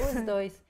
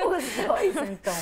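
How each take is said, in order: First: Said in the usual way. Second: Laughing. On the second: Real, not acted. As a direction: laugh it out playfully. Laughing, confirms both words.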